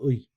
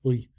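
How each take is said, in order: First: The vowel is made far back in the throat. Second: The same.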